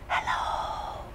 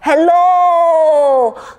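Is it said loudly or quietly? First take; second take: quietly; loudly. First: It is said quietly. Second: It is said loudly.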